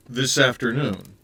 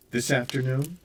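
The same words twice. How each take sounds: First: Louder, bewildered echo with a falling end; confused echo, a touch louder; echoing, at a loss. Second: Said in the usual way. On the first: Acted. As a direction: repeat it back, lost for an answer. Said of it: "clearly at a loss".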